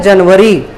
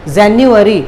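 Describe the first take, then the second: First: जनवरी said Hindi-style as "jun-va-ree"; Hindi pronunciation. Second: जनवरी said English-style as "jan-yu-a-ree"; English pronunciation. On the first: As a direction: say जनवरी with short vowels and a "v". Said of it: "इसको हिंदी में बोलते हैं". (जनवरी का हिंदी उच्चारण, "जन्-वरी") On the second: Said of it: "pronunciation उसका देखें तो उसको हम बोलते हैं". (जनवरी का अंग्रेज़ी उच्चारण, "जैन्युअरी") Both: Shown as a demonstration.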